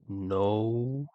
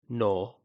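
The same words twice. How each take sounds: First: The vowel slowly glides from o toward u. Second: The vowel stays a pure o without gliding. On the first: "if I say no really slowly, you can kind of hear the transition" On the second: "If I then remove that U sound at the end, it will become the pure no"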